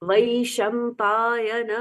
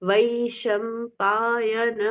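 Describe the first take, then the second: The two takes are said the same way.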